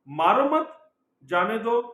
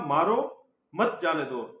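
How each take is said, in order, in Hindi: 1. Pause दूसरे शब्द के ठीक बाद आता है। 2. पॉज़ पहले शब्द के ठीक बाद आता है। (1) "मीन्स बंदे के जीवन आ गया" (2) "मीन्स मार दो"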